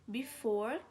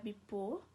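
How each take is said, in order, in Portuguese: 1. A palavra tem um som de F. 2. A palavra tem um som de P.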